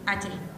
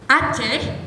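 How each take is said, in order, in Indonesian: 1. Kata ini diucapkan dengan kurang jelas dan tidak tegas. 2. Kata ini diucapkan dengan jelas dan tegas.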